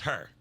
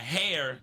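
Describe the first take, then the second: First: The word is pronounced with an 'er' vowel. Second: The word is pronounced with a standard 'air' vowel. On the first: "my her, instead of hair, is her" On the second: "instead of hair"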